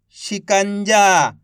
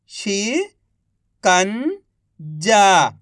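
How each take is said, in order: First: Said in the usual way. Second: Each syllable drawn out very slowly; slow syllable-by-syllable reading. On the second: Shown as a demonstration. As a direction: sound out सुरंग slowly as सु-रं-ग, one sound at a time. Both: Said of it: "एक अक्षर का उच्चारण करके".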